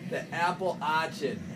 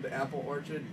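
First: It is said in a Boston accent. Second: It is said in a plain accent.

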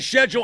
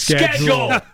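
First: It is said with a British-style pronunciation. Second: It is said with an American-style pronunciation. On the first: The speaker calls it wrong. "If you say schedule, I will punch you. / that's a British thing" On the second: The speaker calls it right. "It's schedule"

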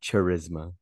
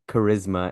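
First: The word begins with a 'ch' sound. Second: The word begins with a 'k' sound. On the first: "and not charisma" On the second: "why is it charisma"

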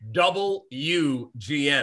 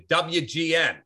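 First: The W is said fully as double U. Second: The W is said in a clipped, casual way. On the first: This is the strict, formal pronunciation that was demanded. "It's double U. That's how you pronounce the W" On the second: This is a relaxed, authentic on-air delivery. "That's how they spoke"

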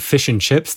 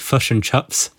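First: The vowels in fish and chips sound standard. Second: The vowels in fish and chips sound like 'uh'.

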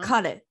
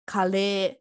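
First: The final vowel is short and clipped. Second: The final vowel is drawn out long. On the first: It means he. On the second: It means curry. "the full food one, you can like make longer"

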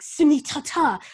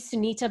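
First: The name is said heavily, as if spat out. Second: The name is said in a plain, neutral way. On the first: "with like a heavy, like, I don't know, she'd be like" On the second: "she would like say Sunita"

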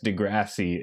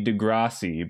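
First: The name is said in the Canadian way. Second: The name is said in a non-Canadian way. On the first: The speaker calls it right. "is the authentic Canadian pronunciation" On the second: The speaker calls it wrong. "I've always been inclined to say Degrassi"

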